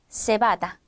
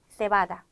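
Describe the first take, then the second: First: The first consonant is an s sound. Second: The first consonant is a th sound. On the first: This is how it is said in Latin America. "쌍시웃 발음에 익숙한데요" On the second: This is how it is said in Spain. "스페인에서 번데기로 발음을 한다면"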